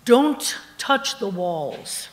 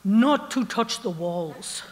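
First: Slow, emphatic reading of a sign; sign read aloud. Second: Put-on slow guard's warning in a thick Egyptian accent. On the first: Acted. Storyteller reads the guards' warning sign to the audience, slow and emphatic. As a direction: spell it out word by word, slowly. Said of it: "in big, big block letters ... it says". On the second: Guard leans in to warn the tourist, thick Egyptian accent. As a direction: imitate an Egyptian guard's heavy accent, drawn out. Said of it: "in a thick accent, he says".

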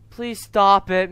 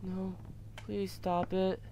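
First: Said in the usual way. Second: A soft, pleading near-murmur; softly pleading to the screen; quiet plea. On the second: Real, not acted. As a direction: beg it under your breath. Pleading while scared in game.

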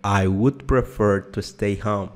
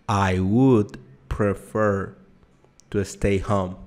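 First: Said in the usual way. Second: Slow, word by word, pause after prefer; slow, clear teacher model; slow, split demo. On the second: Shown as a demonstration. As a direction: spell it out slowly for learners.

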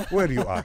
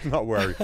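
First: Laughing through mom's mixed-up question; mom's broken English. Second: Said in the usual way. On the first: Retold or imitated. [name] quotes his mom's panicked phone question, laughing. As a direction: mimic mom's jumbled grammar, chuckling. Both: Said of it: "I mean, not where are you?".

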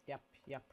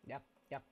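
The two takes are said the same way.

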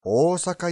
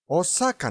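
First: "大阪" with long O and no punched syllable; Japanese intonation. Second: "大阪" with short O and high, punched SA; Spanish stress. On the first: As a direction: say "大阪" evenly, as in Japanese. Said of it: "の方が、". (「大阪」を日本語本来の抑揚で) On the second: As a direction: lean hard on the middle of "大阪". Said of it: "つまり、スペイン語を話す人に、". (「大阪」のサを強く、スペイン語風に) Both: Shown as a demonstration.

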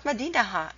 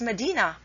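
First: مدينة said "madinaha", extra ha syllable at the end; wrong ha ending. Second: مدينة said "madina", ending on open a; correct pausal ending. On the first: Teacher rules out the ha, مدينة pronounced "madinaha". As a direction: tack a sounded "ha" onto مدينة. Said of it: "It's not". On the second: Teacher corrects the error, مدينة pronounced "madina". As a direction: end مدينة simply on "na", no ha. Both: Shown as a demonstration.

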